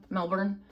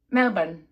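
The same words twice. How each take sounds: First: Said in the usual way. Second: "Melbourne" said as MEL-bun; attempted Australian pronunciation. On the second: Shown as a demonstration. Vlogger trying the host city's name, attempted Australian pronunciation. Tries local pronunciation, then calls it embarrassing.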